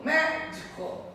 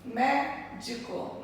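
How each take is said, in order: First: Médico with the first syllable mé stressed; teacher showing proparoxytone stress. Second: Médico drawn out slowly, syllable by syllable; teacher splitting the word into syllables. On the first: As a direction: lean on mé in médico. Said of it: "Então, proparoxítona". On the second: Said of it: "Primeira, segunda, terceira sílaba". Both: Shown as a demonstration.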